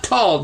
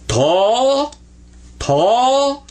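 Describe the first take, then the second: First: "tall" with a hard L at the end; the wrong way, L sounded. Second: "tall" drawn out high with a round aw; modeled tall. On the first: Teacher shows the mistake to avoid. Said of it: "Don't say the L on it". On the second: Teacher models tall for the class. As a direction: stretch "tall", light on the L. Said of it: "This is tall". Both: Shown as a demonstration.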